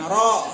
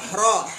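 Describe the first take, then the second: First: The r is said with rounded lips, w-like. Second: The r is said plainly, without lip rounding. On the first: The speaker calls it wrong. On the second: The speaker calls it right.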